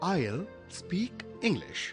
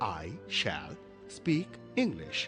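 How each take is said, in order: First: Said fluently, with the first two words contracted. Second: Said fluently, the words run together.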